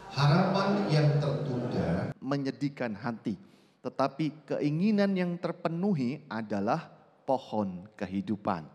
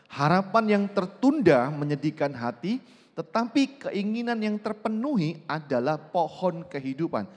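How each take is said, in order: First: It is read at normal volume. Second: It is read loudly and clearly.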